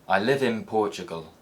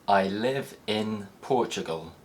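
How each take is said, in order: First: The word 'in' ends with an m sound. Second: The word 'in' ends with a clear n sound.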